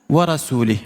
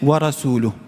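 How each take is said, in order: First: The last word ends with an i vowel. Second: The last word ends with a u vowel. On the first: The messenger is also disavowed. The speaker calls it wrong. "s'est trompée dans la manière de faire les voyelles" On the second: The messenger also does the disavowing. The speaker calls it right. "alors que c'est"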